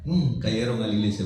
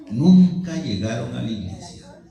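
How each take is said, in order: First: Said in the usual way. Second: "Nunca" drawn out and hit hard; emphatic repeat. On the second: Real, not acted. Preacher telling brethren his workmates broke the deal, "Nunca" stressed emphatically. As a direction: stretch "Nunca llegaron a la iglesia", leaning on "Nunca".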